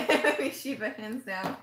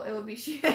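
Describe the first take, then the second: First: Giggly; laughing repeat. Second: Said in the usual way. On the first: Real, not acted. Naming a dream character to viewers, laughing. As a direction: laugh through "Shiva".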